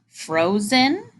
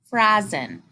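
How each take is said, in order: First: The first vowel is a long o. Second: The first vowel is a short o. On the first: "that first one where we divide right after the O" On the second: "How about the second, second example?"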